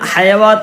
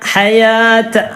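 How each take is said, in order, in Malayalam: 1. ദീർഘ സ്വരത്തിന് മുമ്പ് 'w' ഗ്ലൈഡ് ചേർക്കുന്നു. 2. ദീർഘ സ്വരത്തിന് മുമ്പ് 'w' ഗ്ലൈഡ് ചേർക്കില്ല.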